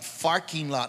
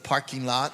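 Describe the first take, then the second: First: The first word begins with an f sound. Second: The first word begins with a p sound. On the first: "the old Filipino man used to say um, "farking lot"" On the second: "instead of "parking lot.""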